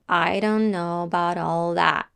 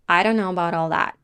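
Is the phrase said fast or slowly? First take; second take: slowly; fast. First: The phrase is said slowly without pauses. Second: The phrase is said quickly with reduced words. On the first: "now we will say it slowly, but without pauses, in continuous sequence" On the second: "And now, faster"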